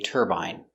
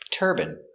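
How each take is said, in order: First: The last syllable has a long 'eye' vowel. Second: The last syllable has a short 'in' vowel. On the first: This is the common English pronunciation. "in England, they say" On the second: This is the common American pronunciation. "In America, it's more common to hear"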